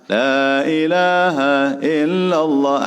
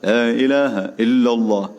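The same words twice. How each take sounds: First: It is said slowly. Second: It is said fast.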